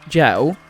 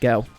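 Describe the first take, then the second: First: It starts with a soft J-like sound. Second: It starts with a hard G sound. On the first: This is how nearly everyone says it. The speaker calls it right. "everyone pronouncing it gel" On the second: A small group says it this way to seem different. The speaker calls it wrong. "Hard G on that one"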